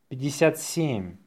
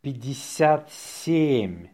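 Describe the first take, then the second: First: Natural-speed dictation; faster. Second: Slow, drawn-out dictation. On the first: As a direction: run the number together briskly. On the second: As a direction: say it slowly for learners. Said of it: "say it slowly". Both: Shown as a demonstration.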